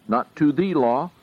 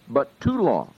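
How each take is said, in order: First: The word "the" lifted and stressed, set against "to law". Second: "to" stressed with a falling tune and no "the". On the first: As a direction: lean on "the" in "to the law" as the wrong reading. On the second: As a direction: land on "to" before "law" as the right reading. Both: Shown as a demonstration. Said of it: "the is not there in any case".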